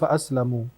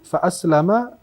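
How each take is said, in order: First: The last word ends with a 'u' vowel. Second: The last word ends with an 'a' vowel. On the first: I am safe from its temptation. "kalau dibaca dengan dhammah" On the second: The companion spirit has submitted to Islam. "Boleh dibaca dengan dua harakat"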